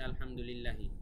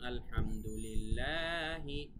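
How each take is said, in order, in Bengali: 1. একই স্বরধ্বনিটি ছোট রাখা হয়। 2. একটি স্বরধ্বনি টেনে লম্বা করা হয়। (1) "টান হবে কিন্তু টানটা দেওয়া হয় নাই" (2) "উচ্চারণটা হবে এরকম"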